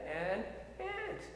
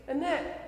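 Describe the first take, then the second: First: "an ant" as two slow, separate words; careful pronunciation. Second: "Annette" said slowly and distinctly; careful pronunciation. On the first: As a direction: separate "an" from "ant", slowly and softly. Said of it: "I could pronounce that now". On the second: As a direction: spell out "Annette" by ear, slowly, as if translating. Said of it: "to translate for me to say". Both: Shown as a demonstration.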